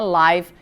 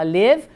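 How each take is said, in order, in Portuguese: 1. A vogal é longa, rimando com five. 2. A vogal é curta, rimando com give. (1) "quando você está vendo alguma coisa ao vivo" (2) "e é o verbo morar"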